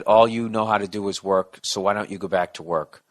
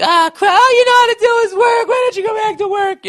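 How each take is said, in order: First: Said in the usual way. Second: Very high, loud mock nagging screech; shrieking wife. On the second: Mocking the wife yelling at her husband, high loud screech. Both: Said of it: "if she said it like that".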